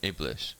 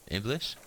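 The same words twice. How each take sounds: First: Said in the usual way. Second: "Iblis?" rising high at the end; questioning "Iblis?" with a rising tune; puzzled question. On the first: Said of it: "He shakes his head and says". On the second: Acted. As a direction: echo the strange word back as a question: "Iblis?". Lieutenant echoes an odd name.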